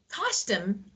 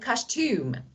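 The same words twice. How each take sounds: First: The stress is on the first syllable. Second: The stress is on the second syllable. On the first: "for the first one, uh, the stress is on the first part" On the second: "the second one, yeah, we have a stress on the second syllable"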